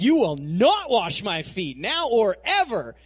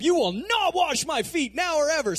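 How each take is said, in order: First: Slow, louder, every word set down; firm loud refusal. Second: Higher, louder, shouted refusal; worked-up shout. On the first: Peter refuses his master, slow and loud. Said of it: "so he's like". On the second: Peter yells his refusal, high and loud. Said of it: "he's all worked up". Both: Retold or imitated.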